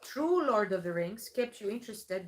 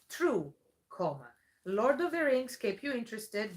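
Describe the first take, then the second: First: It runs on with no pause after true. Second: There is a clear break after true. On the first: True is read as part of the title. The speaker calls it wrong. "I read it in a completely wrong way" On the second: True is read as agreement before the title. The speaker calls it right. "True, comma"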